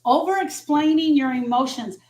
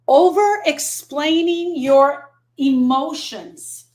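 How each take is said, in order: First: Said in the usual way. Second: Very slow, stretched word by word; drawn-out emphasis. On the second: Real, not acted. Grief coach announces a list item to her viewers, drawn-out emphasis. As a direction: stretch each word out slowly.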